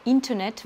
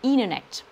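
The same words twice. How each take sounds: First: "internet" with a clear T; the full spelling take of "internet". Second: "internet" as "innernet", T gone; American T-drop. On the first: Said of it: "le T disparaît au profit du N". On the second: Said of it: "internet va donner". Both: Shown as a demonstration.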